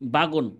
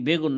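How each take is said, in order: First: The first vowel is an open 'a' sound. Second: The first vowel is an 'e' sound. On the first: This is the village dialect form. "আমরা কই বাগুন, আমাদের গ্রাম্য ভাষায়" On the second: This is the standard form. "আসলে কি ভাই, নাম কি বেগুন নাকি?"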